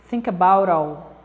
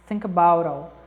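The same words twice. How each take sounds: The two takes are said the same way.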